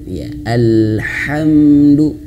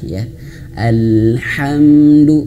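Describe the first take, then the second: The two takes are said the same way.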